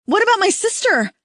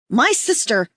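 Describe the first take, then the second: First: Much higher, loud pleading cry; desperate cry. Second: Loud plea. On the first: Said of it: "the woman cries". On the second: Woman yelling. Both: A narrator's reading.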